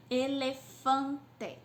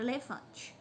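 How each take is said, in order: First: "Elefante" slowly as "e-le-fan-te", full final E; syllable by syllable. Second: Said in the usual way. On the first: Shown as a demonstration. Teacher showing a polysyllable, "Elefante" slowly split into syllables. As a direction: sound out all four beats of "Elefante". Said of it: "tem quatro sílabas". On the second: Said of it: "Eu pensei na palavra".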